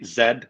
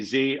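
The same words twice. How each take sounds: First: It is said the Canadian way, as zed. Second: It is said the American way, as zee.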